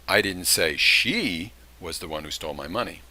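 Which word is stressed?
she. The word "she" carries the main stress. Someone else stole the money. "That would intimate that there was somebody else"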